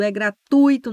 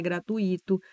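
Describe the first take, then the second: First: Gratuito said gra-TUI-to, stress on tui; correct pronunciation. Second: Gratuito split gra-tu-I-to, stress on the i; wrong pronunciation. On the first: Teacher models gratuito for students, stress on tui. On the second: Teacher shows students the mistaken gratuito, stress on i. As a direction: lean on the i of gratuito. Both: Shown as a demonstration. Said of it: "não é gratuito".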